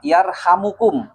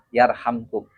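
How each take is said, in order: First: A short u vowel is heard between m and k. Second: The m runs straight into k, no vowel. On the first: It is a prayer: may God have mercy on you. The speaker calls it right. "kalau dibaca ropa yarhamukum" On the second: It is the result of the command: then He will have mercy on you. The speaker calls it wrong. "harus jajam yarhamkum"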